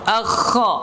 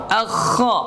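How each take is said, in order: Both takes have the same delivery.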